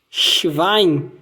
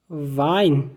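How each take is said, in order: First: Schwein, sh then V sound; German Schwein. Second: Schwein said shvine, W as V; German Schwein. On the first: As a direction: clear model of Schwein. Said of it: "o W aí com o som de V". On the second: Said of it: "Outro exemplo é o". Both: Shown as a demonstration.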